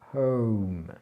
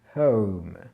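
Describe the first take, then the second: The two takes are said the same way.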